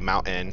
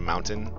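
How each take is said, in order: First: It is said the Colorado way. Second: It is said the standard way. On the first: "My wife would always say mountain" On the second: "instead of mountain"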